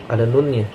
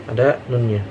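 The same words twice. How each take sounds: No difference in how they are said.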